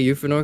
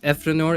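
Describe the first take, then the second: First: The name is pronounced the plain anglicized way. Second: The name is pronounced following the Greek. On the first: "you can just say Euphranor because it makes more sense" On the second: "debatably pronounced Ephranor if you're going by the Greek"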